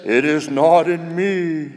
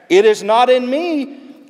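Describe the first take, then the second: First: Slow, drawn-out sea voice. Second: High, loud, slow answer. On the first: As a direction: draw it out as the sea. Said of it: "And the sea says". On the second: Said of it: "the deep speaks back". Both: Acted.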